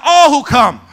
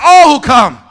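First: Loud, high preacher shout. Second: Very loud, high demonstration shout; full-lunged shout. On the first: Preacher prompting congregation to echo, shouted. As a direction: call it out for them to echo. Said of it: "Somebody shout". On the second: Preacher showing congregation how to shout, full-lunged shout. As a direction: show them how to really shout. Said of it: "Y'all don't know how to shout". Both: Shown as a demonstration.

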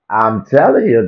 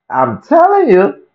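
First: Said in the usual way. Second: I'm telling you squealed high and slow; high strained insistence. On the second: Shown as a demonstration.

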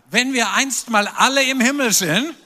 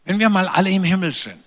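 First: "alle" punched hard, tune rising through the line; stress on alle. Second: Accent falls on "wir", not yet on "alle"; first try at the stress. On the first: Preacher retries the line to the congregation, stressing "alle". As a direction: hit the word "alle" and lift the end. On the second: Preacher's first attempt at the line, stressing "wir". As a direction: lean on "wir", let "alle" pass unstressed. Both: Shown as a demonstration. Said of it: "Betonung liegt auf alle".

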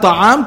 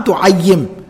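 First: Ta'am said as the plain wrong word, short first vowel; wrong form ta'am. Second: Tu'ayyim said slowly with a doubled y and a u start; correct form tu'ayyim. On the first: Teacher contrasts ta'am with the right word. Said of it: "Not ta'am". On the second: Teacher corrects ta'am to tu'ayyim. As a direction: stress the yy in tu'ayyim. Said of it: "Not ta'am, tu'ayyim". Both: Shown as a demonstration.

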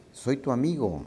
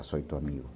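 First: Called out. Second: Soft echo. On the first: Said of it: "le grita". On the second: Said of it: "La montaña le contesta". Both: A narrator's reading.

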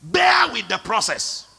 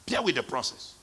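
First: Shouted exhortation. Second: Much softer echo; soft repeat. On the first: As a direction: preach it out hard. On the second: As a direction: drop it to a hush. Repeated softly. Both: Real, not acted.

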